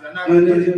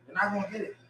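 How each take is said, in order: First: You're not gonna get it, pushed out louder; louder insistence. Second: You're not gonna get it, dropped soft; quieter repeat. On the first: Tells the listener he won't get it, loud. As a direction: press it on them, loud and firm. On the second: Repeats it to himself, softer and resigned. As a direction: let it fall away, quietly. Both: Real, not acted.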